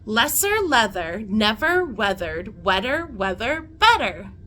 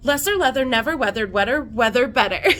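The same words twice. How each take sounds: First: It is said at a slower, careful pace. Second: It is said at a faster, quicker pace.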